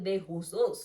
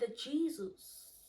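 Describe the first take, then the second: First: The surname sounds different from its spelling. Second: The surname sounds the way it is spelled. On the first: This is how people in interviews say it. "But they kept on saying de Jesus" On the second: This is the simple way the speaker said it. "why can't they say G Georgina the Jesus? Simple"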